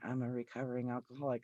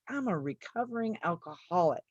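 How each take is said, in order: First: It is said in a subdued, ashamed tone. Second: It is said in a strong, proud tone. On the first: The speaker is embarrassed by the fact. The speaker calls it wrong. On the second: The speaker owns the fact as an accomplishment. The speaker calls it right.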